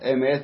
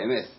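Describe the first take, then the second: First: It ends with a t sound, standard pronunciation. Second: It ends with an s sound, Ashkenazi-style.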